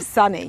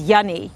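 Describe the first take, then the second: First: The word begins with an S sound. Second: The word begins with a Y sound.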